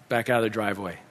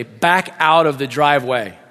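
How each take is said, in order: First: Low, soft repeat of an order; subdued, obedient echo; quiet echo. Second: Child's firm driving instruction, acted; giving directions. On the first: Retold or imitated. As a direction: repeat it softly to yourself as you comply. Dad obediently echoes the direction. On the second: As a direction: give each word of the order clearly. Boy gives directions, dad echoes.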